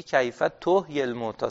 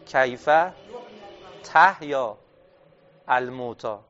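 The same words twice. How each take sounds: First: تحیی with u on the ta, as tuhyī; damma on ta. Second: تحیا with a on the ta, said slowly word by word; fatha on ta. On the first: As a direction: stress تحیی and say it tuhyī, causative form. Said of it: "صیغهٔ هفت داره میاره". (تحیی با ضمه روی تا، تُحیی) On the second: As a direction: read تحیا as tahyā with an open a after the t. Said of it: "یعنی باید چی میگفت؟". (تحیا با فتحه روی تا، شمرده) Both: Shown as a demonstration.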